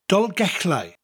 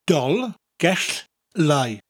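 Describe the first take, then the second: First: It is said at normal speed. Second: It is said slowly.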